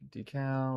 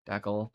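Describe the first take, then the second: First: It is said to sound like decaf. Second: It is said with the Canadian pronunciation. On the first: "like decaf" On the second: "particularly in Canada"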